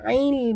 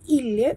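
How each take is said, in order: First: It starts with a consonant from the throat. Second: It starts with a plain vowel and no consonant. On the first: The speaker calls it right. "Huru'ain jaga makhraj" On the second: The speaker calls it wrong.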